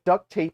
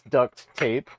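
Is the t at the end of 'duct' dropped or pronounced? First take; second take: dropped; pronounced. First: The t is dropped, so it sounds like duck. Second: The word duct ends with a clear t. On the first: This is the fun, casual name. "but duct tape is more fun" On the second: This is the technically correct name. "I know it's duct tape"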